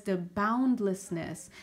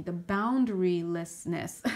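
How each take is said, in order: First: "boundlessness" said slowly as the first, mistaken word; slip of the tongue. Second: "boundarylessness" said slowly and carefully as the corrected word; self-correction. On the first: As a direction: say "boundlessness", then catch yourself. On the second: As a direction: fix it with a slow "boundarylessness". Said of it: "uh, excuse me". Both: Real, not acted.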